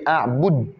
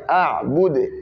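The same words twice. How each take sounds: First: The final d is stopped without a bounce. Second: The final d is released with an echoing bounce. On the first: "En principe, on devait dire a'bud" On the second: "on va appliquer les règles qui est la qalqala"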